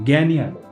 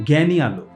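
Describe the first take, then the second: Both takes have the same delivery.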